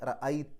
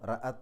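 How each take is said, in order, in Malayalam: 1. അവസാന 'ta'ക്ക് മുമ്പ് 'y' ശബ്ദമുണ്ട്. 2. അവസാന 'ta'ക്ക് മുമ്പ് 'y' ശബ്ദമില്ല. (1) "അങ്ങനെ റഅയ്ത എന്നാവും" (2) "റഅത എന്നല്ല"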